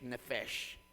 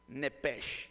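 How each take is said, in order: First: The middle consonant is an f sound. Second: The middle consonant is a p sound. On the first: "se convierte en una F" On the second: "La P"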